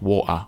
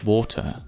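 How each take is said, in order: First: The middle T is dropped and it ends in 'ah'. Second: The middle T sound is clearly pronounced.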